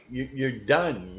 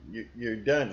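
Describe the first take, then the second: First: Done hit and falling; stress on done. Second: Said in the usual way. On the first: Real, not acted. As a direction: land hard on done. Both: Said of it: "emphatic repetition".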